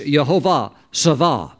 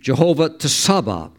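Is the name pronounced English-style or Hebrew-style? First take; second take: Hebrew-style; English-style. First: The name is said with a Hebrew pronunciation. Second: The name is read with an English-style pronunciation. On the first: "But in the Hebrew is" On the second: "if you were to read it like an English type pronunciation"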